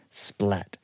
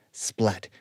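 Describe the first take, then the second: No difference in how they are said.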